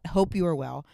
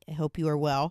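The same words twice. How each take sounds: First: The greeting sounds warm and sincere. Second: The greeting sounds flat and insincere. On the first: The speaker calls it right. "Now I'm in the zone" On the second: The speaker calls it wrong. "That didn't sound like I was being sincere"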